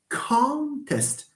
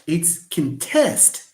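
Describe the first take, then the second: First: The stress is on the first syllable. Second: The stress is on the second syllable. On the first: It is used as a noun. "If it's a noun, then of course you have con is the first syllable" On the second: It is used as a verb. "But when it is a verb"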